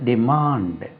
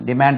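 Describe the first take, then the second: First: டிமாண்ட் as "di-MAAND", long open aa; correct pronunciation. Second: டிமாண்ட் as "di-MAND", shorter fronted a; mistaken pronunciation. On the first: Teacher correcting learners, டிமாண்ட் with long "MAAND". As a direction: draw out the aa in டிமாண்ட். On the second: Teacher rejecting the common form, டிமாண்ட் as "di-MAND". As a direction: keep the vowel of டிமாண்ட் short, like "man". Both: Shown as a demonstration. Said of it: "டிமாண்ட் இல்லது".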